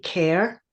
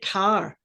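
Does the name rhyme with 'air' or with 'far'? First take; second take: air; far. First: The name rhymes with air. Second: The name rhymes with far. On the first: This is how people locally would say it. "I would say Care" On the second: This is how one film star from Glasgow said it. "pronounced it Car"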